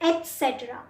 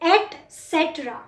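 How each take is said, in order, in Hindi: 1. t सीधे s में मिल जाता है। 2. t, s से पहले पूरा बोला जाता है। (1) "ट पूरा हम नहीं बोलते, एस के साथ कंबाइन करते हैं" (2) "इसकी फुल फॉर्म होती है"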